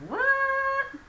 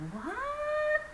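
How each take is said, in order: First: Very high and loud What?, almost shouted; rude, loud, high What?; loud indignant what. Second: Very high, rising astonished What?; shocked, high-pitched What?; high surprised what. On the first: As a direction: fire What? back in outrage. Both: Shown as a demonstration. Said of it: "in a different tone".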